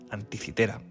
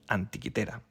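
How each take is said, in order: First: The third syllable starts with an s-like sound. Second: The third syllable starts with a k-like sound. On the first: This is the usual Spanish form of the name. "en español es más común llamar a la isla griega y al mecanismo Anticitera" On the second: This form is closer to the original pronunciation. "yo prefiero llamar a ambos Antiquitera, ya que me resultan más próximas a su pronunciación original"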